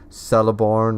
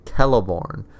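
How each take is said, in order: First: The name begins with a soft S sound. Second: The name begins with a hard K sound. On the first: The speaker calls it wrong. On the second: The speaker calls it right.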